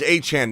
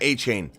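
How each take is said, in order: First: The name does not end like 'chain'. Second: The name ends like the word 'chain'. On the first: The speaker calls it right. "His name's Achan" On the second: The speaker calls it wrong. "not A-Chain"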